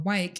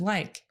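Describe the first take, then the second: First: The word begins with a W sound. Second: The word begins with an L sound. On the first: The speaker calls it wrong. "when a child mispronounces L, he is substituting W instead" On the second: The speaker calls it right. "instead of like"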